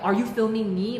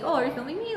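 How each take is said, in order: First: It sounds accusing and confrontational. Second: It sounds light, casual and friendly.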